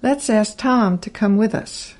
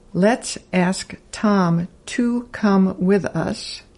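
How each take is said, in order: First: "to" shrunk to a slight t sound; natural casual speed; reduced to. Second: Slow careful "to" with full vowel; deliberate word-by-word reading; slow full form. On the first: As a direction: run "Tom to come" together. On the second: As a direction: spell each word out slowly. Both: Shown as a demonstration. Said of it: "sounds like".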